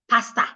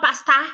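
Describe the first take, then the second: First: The final vowel is a weak uh. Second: The final vowel is a full open ah. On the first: The speaker calls it right. "the last sound there is a weak sound. Uh, uh, not ah" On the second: The speaker calls it wrong. "it's not pasta"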